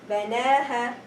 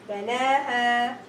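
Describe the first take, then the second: No difference in how they are said.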